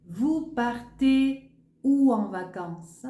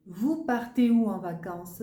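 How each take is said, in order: First: Où drawn out and stressed, louder, slow; slow open question. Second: Said in the usual way. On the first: Shown as a demonstration. Teacher modelling the open question word, slow and stressed. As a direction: lean on où, slowly. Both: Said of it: "là, c'est une question ouverte".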